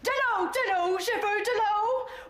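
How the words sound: It sounds firm and commanding, like a colonel.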